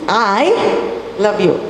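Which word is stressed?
I. The stress falls on the word I. Only this person loves you, nobody else. "It is I who loves you, nobody else"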